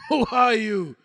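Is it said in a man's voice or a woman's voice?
man's voice. It is said in his own male voice.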